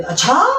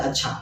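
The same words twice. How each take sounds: First: Surprised. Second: Said in the usual way. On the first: Shown as a demonstration. Teacher showing a reaction to surprising match news, surprised. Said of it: "आश्चर्यचकित". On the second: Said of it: "ये normal वाला अच्छा".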